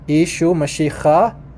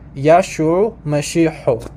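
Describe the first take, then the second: First: It is pronounced in the Eastern Syriac dialect. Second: It is pronounced in the Western Syriac dialect. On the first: "So in in Eastern, it's pronounced Yeshua Mashiach"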